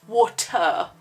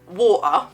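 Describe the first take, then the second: First: The T in the middle is pronounced. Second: The T in the middle is dropped.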